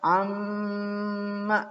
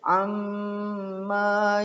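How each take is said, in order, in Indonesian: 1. Vokal akhirnya pendek. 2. Vokal akhirnya dipanjangkan. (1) "harus dibaca pendek" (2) "di ayun"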